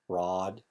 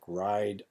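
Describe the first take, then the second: First: The vowel is a long flat ah sound. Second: The vowel glides like the usual i sound.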